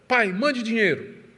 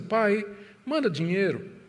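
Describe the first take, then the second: First: It sounds like a rude, demanding order. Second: It sounds like a soft, affectionate plea.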